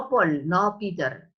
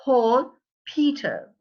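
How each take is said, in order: First: Paul and Peter with no puff of air on the P; unpuffed P. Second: Paul and Peter with a burst of air on the P; aspirated P, said as the correct model; puffed P. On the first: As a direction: hold back the burst on the P in Paul and Peter. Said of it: "It's Paul, Peter". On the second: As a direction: pop the P hard in Paul and Peter. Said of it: "because it's explosive, the air goes out". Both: Shown as a demonstration.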